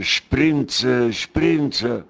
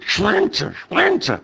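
First: Said in the usual way. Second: Retold shout of a name. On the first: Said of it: "den ganzen Tag schreit er". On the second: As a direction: yell the name across the ward like a madman. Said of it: "und du eine schreit".

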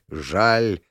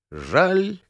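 First: Жаль dropped low with falling tune; low regretful. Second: Жаль lifted high, light regret; higher regretful. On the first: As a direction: let жаль sink low and heavy. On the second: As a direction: say Жаль up high, half-sighing. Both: A narrator's reading.

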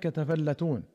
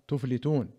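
First: تفلتون as "tafallatūn", doubled l; fatha with doubled lām. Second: تفلتون as "tuflitūn", single l; damma, silent fā', kasra. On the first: Reader showing the first reading, تفلتون voiced tafallatūn. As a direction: open a vowels and a held l in تفلتون: tafallatūn. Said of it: "فتح التاء والفاء واللام المشددة". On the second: Reader showing the other reading, تفلتون voiced tuflitūn. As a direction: say تفلتون with u, closed f, then i: tuflitūn. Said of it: "وروي بضم التاء". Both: Shown as a demonstration.

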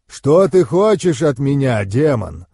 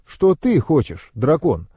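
First: Loud, booming dragon's challenge; powerful dragon voice, dropping on the last word; rumbling dragon. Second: Slow question leaning on ТЫ; pointed emphasis on ТЫ, narrator's own voice; stress on ТЫ. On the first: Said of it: "пророкотал дракон". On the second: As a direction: turn the question back by stressing ТЫ. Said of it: "задам тебе тот же вопрос". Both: A narrator's reading.

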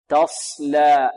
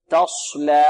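First: Slow تصلى, heavy ص with lips unrounded; correct unrounded sad. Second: Over-heavy ص in تصلى made with pursed lips; wrong rounded sad. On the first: Teacher gives the right form, correct unrounded sad. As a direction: hold ص in تصلى without rounding, light lam after. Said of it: "خطأ". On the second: Teacher shows the error again, wrong rounded sad. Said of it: "يريد يفخم الصاد يقول". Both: Shown as a demonstration.

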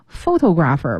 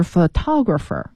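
First: Photographer wrongly stressed on the first syllable, PHO-to-grapher. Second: Photographer stressed on the second syllable, pho-TO-grapher; correct stress. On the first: (photographer 错把重音放在第一个音节) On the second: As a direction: move the beat onto TO in photographer. (photographer 重音在第二个音节) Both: Shown as a demonstration. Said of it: "不对，是photographer".

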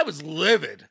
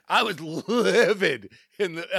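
First: "livid" said firmly at normal pace; emphatic livid. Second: "livid" stretched slowly for emphasis; drawn-out livid. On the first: Host recalling cradling celebration, emphatic "livid". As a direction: land firmly on "livid" without stretching it. First take, then repeated drawn out. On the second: Host recalling cradling celebration, drawn-out "livid". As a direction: lean hard on "livid", drawing it out. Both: Real, not acted.

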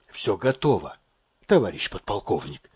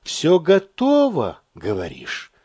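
First: Low, subdued, laboured report; forced out with effort. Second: Sceptical echo. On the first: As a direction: squeeze the words out softly. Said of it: "Слова выворачивались с усилием". (с усилием, тихо и низко) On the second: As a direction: slowly quote the report back in doubt. Colonel echoes sergeant's report sceptically. (недоверчиво, протяжно переспрашивая) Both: A narrator's reading.

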